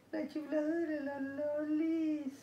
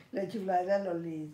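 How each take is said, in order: First: Much higher, slow cooing "La chiflada de la Lolis"; singsong pet talk. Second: Said in the usual way. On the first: Pretend. Teasing her cat, repeated.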